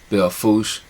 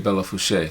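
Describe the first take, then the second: First: The final e sounds are left silent. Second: The final e sounds are pronounced as syllables. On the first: The speaker calls it right. "It is actually" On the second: The speaker calls it wrong. "It doesn't have the accent over the E's, so you don't say"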